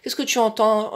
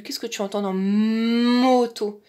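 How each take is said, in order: First: Said in the usual way. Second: Put-on slow, stretching "moto" for the child; exaggerated emphasis. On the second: Shown as a demonstration. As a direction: lean heavily on "moto". (question lente en appuyant sur « moto ») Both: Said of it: "on insiste grossièrement".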